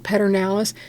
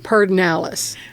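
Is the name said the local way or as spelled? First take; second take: as spelled; local. First: The name is pronounced the way it is spelled. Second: The name is pronounced the local Texan way. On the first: The speaker calls it wrong. "I don't know anybody in Texas that pronounce it Pedernales" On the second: The speaker calls it right. "We all say Pedernales"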